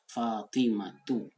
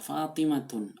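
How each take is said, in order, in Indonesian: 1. Nama itu berakhir pada vokal tanpa n. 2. Nama itu berakhir dengan bunyi n tambahan. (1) "Contoh tadi, Fatimatu" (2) "Jangan dibaca Fatimatun"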